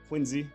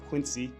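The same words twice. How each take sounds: First: The middle consonant is a z sound. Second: The middle consonant is an s sound. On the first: The speaker calls it right. "Put a Z in there" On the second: The speaker calls it wrong. "Told me it wasn't Quincy. Don't pronounce it like you're from Western Mass"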